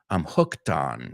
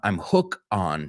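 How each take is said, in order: First: A t sound links into 'on'. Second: No t sound is heard before 'on'. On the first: The speaker calls it right. "la T va con el on" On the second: The speaker calls it wrong. "You said, uh, I'm hook on"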